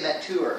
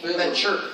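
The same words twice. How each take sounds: First: The t sounds like a plain t. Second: The t sounds like ch. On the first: This is how British speakers say it. The speaker calls it wrong. "We don't say mature. Well, the British do" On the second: This is how speakers here say it. The speaker calls it right. "With a ch ch ch ch"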